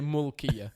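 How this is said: The first vowel sounds like 'u'. This is how it is said locally. "here you will say mulkiya"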